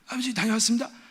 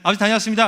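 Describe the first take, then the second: First: The voice is hoarse and strained. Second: The voice is clear and normal.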